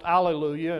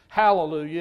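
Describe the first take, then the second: First: The word starts without an h sound. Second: The word starts with an h sound. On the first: This is the form taken from Greek. "when you translate hallelujah from the Greek language, it's pronounced alleluia" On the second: This is the form taken from Hebrew. "when you translate it from the Hebrew language, it's hallelujah"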